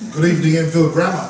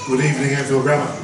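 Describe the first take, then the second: First: It is said in a stronger, livelier voice. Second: It is said flatly, without much energy.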